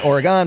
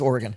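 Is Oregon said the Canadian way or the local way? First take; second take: Canadian; local. First: It is said with a Canadian pronunciation. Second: It is said the way locals say it.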